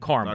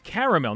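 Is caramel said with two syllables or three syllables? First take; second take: two syllables; three syllables. First: The word is said with two syllables. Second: The word is said with three syllables. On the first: The speaker calls it wrong. "not caramel. As opposed to Mount Carmel" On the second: The speaker calls it right. "It's caramel"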